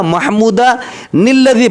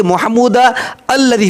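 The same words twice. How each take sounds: First: महमूदा निल्लज़ी linked with the nun; joined reading. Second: महमूदा अल्लज़ी with a break before अल्लज़ी; separated महमूदा and अल्लज़ी; stopped reading. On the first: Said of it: "मिलाक पढ़िएगा". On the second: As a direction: pause after महमूदा then start अल्लज़ी fresh. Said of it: "ऑफ कर दिए". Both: Shown as a demonstration.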